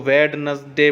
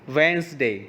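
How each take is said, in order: First: A d sound is heard after the first vowel. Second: No d sound is heard after the first vowel. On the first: The speaker calls it wrong. "आप लोग इसको वेडनसडे बोलते हो, वो जो कि गलत है" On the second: The speaker calls it right. "इसकी सही प्रोनाउंसिएशन है वेंसडे"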